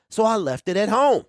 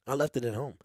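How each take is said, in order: First: Said in the usual way. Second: Softer, deflated "I left it at home"; rueful repeat. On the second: Real, not acted. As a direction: let "I left it at home" drop soft and sorry. Forgot GoPro, repeats it.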